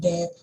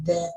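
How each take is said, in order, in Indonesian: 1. Diawali dengan bunyi d yang keras. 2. Diawali dengan bunyi th yang lembut. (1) "Kalau kita nggak keluarkan lidahnya, nanti uh, itu lebih kayak kita ngomong that" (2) "Padahal harusnya kita ngomong that itu"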